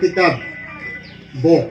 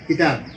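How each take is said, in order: First: The word ends in a 'b' sound. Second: The word ends in a 'p' sound.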